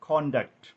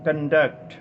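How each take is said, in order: First: The stress is on the first syllable. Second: The stress is on the second syllable. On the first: The word is a noun meaning behaviour. "നൗണായി ഈ വാക്ക് ഉപയോഗിക്കുമ്പോൾ" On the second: The word is a verb meaning to organize. "വെർബായിട്ട് ഉപയോഗിക്കുമ്പോൾ ഈ വാക്ക് ഉച്ചരിക്കേണ്ടത്"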